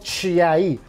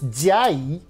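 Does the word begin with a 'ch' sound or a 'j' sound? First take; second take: ch; j. First: The word begins with a 'ch' sound. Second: The word begins with a 'j' sound. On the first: The speaker calls it wrong. "which is absolutely not Chinese because it's not Chiayi" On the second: The speaker calls it right. "it's Jiayi"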